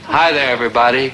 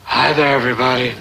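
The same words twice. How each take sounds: First: The voice is at an ordinary pitch. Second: The voice is low, breathy and seductive. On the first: The speaker calls it wrong. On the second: The speaker calls it right.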